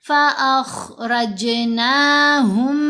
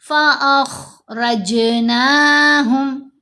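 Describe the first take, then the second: The two takes are said the same way.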